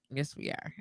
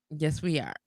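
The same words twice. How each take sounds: First: Whispered yes we are; whispered echo. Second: Said in the usual way. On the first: Shown as a demonstration. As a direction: whisper it back softly. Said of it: "repeat whispered". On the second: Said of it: "repeat, then whisper".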